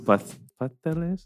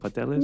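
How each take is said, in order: First: The s sound is lisped like th. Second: The s sound is dropped entirely. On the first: "they have the lisp" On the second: "and then it just became pasteles"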